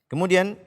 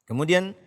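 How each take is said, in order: The two takes are said the same way.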